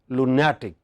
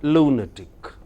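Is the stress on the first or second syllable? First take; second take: second; first. First: The stress is on the second syllable. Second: The stress is on the first syllable. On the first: The speaker calls it wrong. "By rule, it should be lunatic" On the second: The speaker calls it right. "This is an exception"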